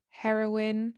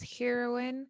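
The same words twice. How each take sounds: First: It is said the way British speakers say it. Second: It is said the way Tamil films say it. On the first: "I hear it pronounced as heroine here in the U K" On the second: "I hear it pronounced as heroine in Tamil movies"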